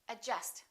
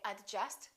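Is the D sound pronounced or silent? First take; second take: silent; pronounced. First: The D sound is silent. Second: The D sound is pronounced. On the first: The speaker calls it right. "say adjust" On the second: The speaker calls it wrong. "Don't say adjust"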